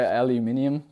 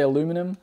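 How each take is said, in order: First: It is pronounced the Australian way. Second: It is pronounced the American way. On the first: "In Australia, we say aluminium generally" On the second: "Americans tend to say aluminum"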